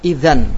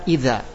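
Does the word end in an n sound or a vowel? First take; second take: n sound; vowel. First: The word ends with an n sound. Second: The word ends on an open a vowel. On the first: The final nun is kept when pausing. "waqaf dengan nun" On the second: The final nun becomes alif when pausing. "ketika waqaf mereka berkata idza"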